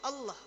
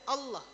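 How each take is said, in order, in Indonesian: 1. Diucapkan dengan bibir diam dan tidak membulat. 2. Diucapkan dengan bibir diam dan tidak membulat.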